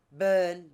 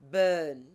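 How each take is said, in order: The two takes are said the same way.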